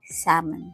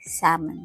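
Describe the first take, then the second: First: The L sound is silent in the word. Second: The same.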